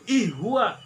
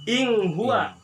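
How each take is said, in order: First: The n merges into the following sound. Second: The n is hidden with a nasal sound. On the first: "jadi idgham" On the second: "Kalau dibaca ing huwa maka ikh ikhfa"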